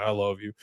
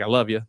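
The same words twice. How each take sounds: First: Softly imitated gruff manly voice; a hint of a man trying to sound tough. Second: Said in the usual way. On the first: Boyfriend trying to sound manly to girlfriend, lightly gruff. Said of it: "trying to sound more gruff and manly". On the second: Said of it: "you don't have to do it that way".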